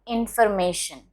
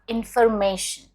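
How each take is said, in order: No difference in how they are said.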